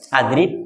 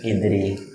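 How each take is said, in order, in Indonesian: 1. Kata ini diawali dengan vokal 'a'. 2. Kata ini diawali dengan vokal 'i'. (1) "Adrib apa idrib?"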